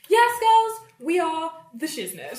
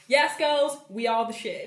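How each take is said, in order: First: It is said in a put-on posh accent. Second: It is said in her ordinary accent.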